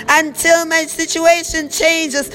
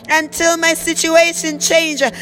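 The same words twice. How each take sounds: The two takes are said the same way.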